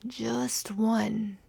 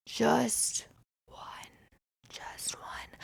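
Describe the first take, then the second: First: Said in the usual way. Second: Whispered, fading to near silence; mock ASMR whisper. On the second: Shown as a demonstration. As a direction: breathe the words like ASMR. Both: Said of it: "let's do some A S M R".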